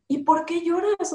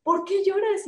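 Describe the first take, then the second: First: High, irritated mother's question; annoyed. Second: Much higher, irritated mother's question; annoyed. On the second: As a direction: push the question up high and annoyed. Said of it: "así como". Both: Retold or imitated.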